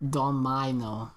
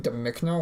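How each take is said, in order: First: Slow "Domino" with MY in the middle; "Domino" said DOM-my-no, silent K; invented name pronunciation. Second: "Domicno" read duh-MICK-no, rising; lower, questioning "Domicno" as duh-MICK-no; puzzled misreading. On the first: Shown as a demonstration. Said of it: "gonna be pronounced no". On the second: Acted. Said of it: "They're gonna be like".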